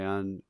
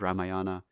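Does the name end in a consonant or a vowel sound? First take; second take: consonant; vowel. First: The name ends on a consonant, no final vowel. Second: The name ends with a final vowel sound. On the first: This is how people actually say it. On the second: This follows the spelling. "it's spelled Ramayana"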